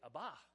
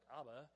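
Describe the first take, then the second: First: It is said the original-language way. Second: It is said the usual English way. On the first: This is how the original speakers say it. "They say Abba" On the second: This is how English speakers say it. "they don't say Abba like we do, like Abba"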